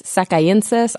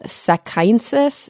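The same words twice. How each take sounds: First: "sakaiensis" retried as sak-eye-EN-sis; careful second go at "sakaiensis"; unsure pronunciation. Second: "sakaiensis" tried as sak-EYE-n-sis; tentative first go at "sakaiensis"; unsure pronunciation. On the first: Podcaster retrying a Japanese place name, tentative pronunciation. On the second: Podcaster unsure of a Japanese place name, tentative pronunciation. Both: Real, not acted. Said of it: "not sure how to pronounce that".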